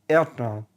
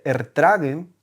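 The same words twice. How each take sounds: First: The word is shortened, with sounds run together. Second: Every syllable is pronounced fully and clearly. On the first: "Te dicen eh, ertragen" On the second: "en vez de decirte ertragen"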